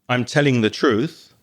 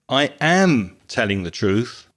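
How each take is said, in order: First: The verb am is contracted and unstressed. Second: The verb am is full and strongly stressed.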